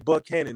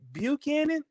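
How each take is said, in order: First: The name is pronounced the locals' way. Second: The name is pronounced the outsiders' way. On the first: This is how people who live there say it. The speaker calls it right. "We say Buchanan in Nashville" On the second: Someone from outside the city corrects a local. The speaker calls it wrong. "they'll correct you and say"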